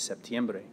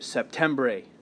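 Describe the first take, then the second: First: The middle syllable is said as tiem. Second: The middle syllable is said as tem. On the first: The speaker calls it right. "It's septiembre" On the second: The speaker calls it wrong. "you don't want to say it septembre, because that's not it"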